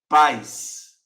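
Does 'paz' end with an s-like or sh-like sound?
s-like. The word ends with an s-like sound. This is how it is said in other regions. "Em outros lugares não fala com esse som de X, fala paz"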